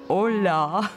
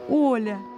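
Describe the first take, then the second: First: The stress is on the last syllable. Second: The stress is on the first syllable. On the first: The speaker calls it wrong. "с ударением на последнюю гласную" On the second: The speaker calls it right. "поправила его «Оля!». Я постаралась выделить ударением первую гласную"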